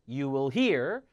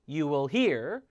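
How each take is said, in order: No difference in how they are said.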